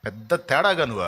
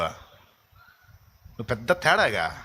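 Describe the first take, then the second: First: Said in the usual way. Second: Slow mocking sneer. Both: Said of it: "నీకెవడు చెప్పాడు రా లూసి".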